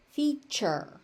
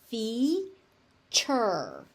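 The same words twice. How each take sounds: First: Said in the usual way. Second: Slow "feature", fee... chur; long gap between the syllables of "feature". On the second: Shown as a demonstration. Teacher breaks word into syllables.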